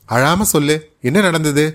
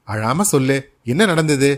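First: Firm, slightly raised questioning. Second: Gentle coaxing. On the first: Sitaramaiyar asking crying Mangalam, firm and raised. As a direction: demand the story firmly. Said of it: "என்னத்துக்கு இப்படி அழற?". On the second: Sitaramaiyar patting Mangalam's shoulder, gently coaxing. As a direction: coax her kindly. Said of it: "தோளில் தட்டி கொண்டு கேட்கிறார்". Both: A narrator's reading.

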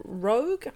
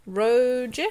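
First: "Roeg" said with a hard g, like "rogue"; hard final G. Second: "Roeg" said with a soft g, ending like "doge"; soft final G. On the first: Host unsure of the director's surname, hard-g "Roeg". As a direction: try "Roeg" as one syllable ending in a hard g. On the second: Host offering another reading of the surname, soft-g "Roeg". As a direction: try "Roeg" with a j sound at the end. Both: Shown as a demonstration. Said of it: "R O E G".

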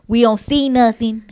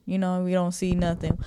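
First: "see" pushed louder and higher than before; emphatic repeat. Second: Muttered. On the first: Telling his dad they never stop, emphatic on "see". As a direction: lean hard on "We don't see nothing". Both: Retold or imitated. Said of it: "Like, we ain't".

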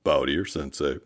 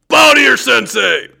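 First: Said in the usual way. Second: High barked dojo command, shouted; sharp martial arts commands. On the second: Retold or imitated. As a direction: yell it like a martial arts instructor. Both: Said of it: "But I can make up for some of that right now".

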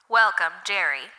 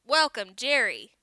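First: Loud robotic loudspeaker greeting; booming computer voice. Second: Loud, higher mock of the computer; a hint of the machine greeting, mocked; mimicking computer voice. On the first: Acted. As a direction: boom it out like a machine announcer. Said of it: "a computerized voice boomed over the loudspeaker". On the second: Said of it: "he mimicked".

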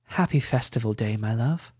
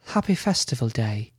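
First: Said in the usual way. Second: Light female character voice; woman's voice. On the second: Acted. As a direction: answer him in a gentler woman's voice. Ella replies in her voice.

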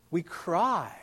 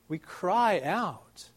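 First: Said in the usual way. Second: Slow, leaning hard on "cry"; stress on cry. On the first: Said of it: "That word is". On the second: Shown as a demonstration. Preacher dwelling on "cry" for his flock. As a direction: draw out "cry" to feel the distress. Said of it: "indicates some intense distress".

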